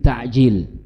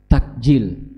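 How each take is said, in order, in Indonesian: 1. Konsonan tengahnya bunyi faringal di tenggorokan. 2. Konsonan tengahnya bunyi k biasa. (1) "tapi ta'jil. Pakai ain" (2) "Apalagi pakai ka, takjil gitu ya"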